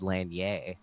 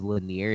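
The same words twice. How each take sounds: First: The name has a French-sounding pronunciation. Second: The name has an Americanized pronunciation. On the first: This may be the original pronunciation. "it was like a French name or something" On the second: This is how the family says it. "we Americanized it"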